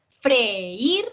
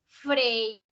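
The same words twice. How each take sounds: First: "freír" in two syllables, fre-ÍR, rising on í; hiatus. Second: "freír" as one syllable, FRÉIR, stress on e; wrongly as diphthong. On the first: Teacher showing syllables opening, "freír" said as fre-ÍR. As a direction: split "freír" and lift the í. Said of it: "se abren las sílabas". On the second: Teacher contrasting a wrong reading, "freír" as one-beat FRÉIR. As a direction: squash "freír" into a single FRÉIR. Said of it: "otra cosa sería si fuera". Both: Shown as a demonstration.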